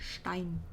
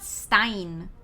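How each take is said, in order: First: The word begins with an sh sound. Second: The word begins with a plain s sound. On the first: The speaker calls it right. "with a sh sound" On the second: The speaker calls it wrong. "it's not Stein"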